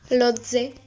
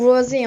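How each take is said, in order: First: The name is said with Korean sounds. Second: The name is said with English sounds. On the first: "Mais en coréen, c'est on prononce" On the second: "comme le font euh, les Anglais, les Américains"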